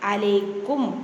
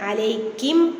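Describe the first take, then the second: First: The last syllable is said with a 'u' vowel. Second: The last syllable is said with an 'i' vowel. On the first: The speaker calls it right. "കും" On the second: The speaker calls it wrong. "കിം അല്ല"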